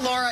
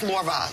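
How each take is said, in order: First: It is said in a neutral American accent. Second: It is said in a strong New Jersey accent. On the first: "name's not Laura" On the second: "it's Laura"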